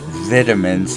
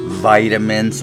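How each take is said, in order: First: The first vowel is a short 'ih' sound. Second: The first vowel is a long 'eye' sound. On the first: This is how the English say it. "like the jolly old English people do" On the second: This is how it is said here. "pronounce the I as a long vowel as we do here"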